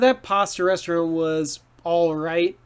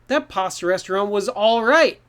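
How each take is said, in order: First: It is said flatly, with no strong feeling. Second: It is said brightly, sounding a little happy. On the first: The restaurant was just average. "kind of like neutral, not strong feelings" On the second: The restaurant was a bit good. "a little more happy"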